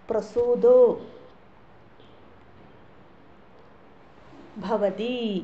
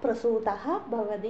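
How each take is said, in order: First: The first word ends in an 'o' sound. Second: The first word ends in an 'ah' sound. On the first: "പ്രസൂതോ ഭവതി എന്നും പറയാം" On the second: "പ്രസൂതഹ വിസർഗ ഉച്ചരിക്കുന്നതിലും തെറ്റൊന്നുമില്ല"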